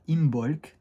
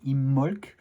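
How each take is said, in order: First: The B in the middle is pronounced. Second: The B in the middle is silent. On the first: "moi je vais dire Imbolc" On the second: "se prononcerait avec un B muet"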